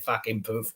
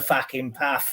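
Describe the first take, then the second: First: The last word has a long 'oo' vowel. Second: The last word has a flat 'a' vowel. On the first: This is how locals actually say it. The speaker calls it right. "they'd say fucking poof" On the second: A northerner is faking a southern accent. The speaker calls it wrong. "when someone from the north is pretending to be someone from the south because they go"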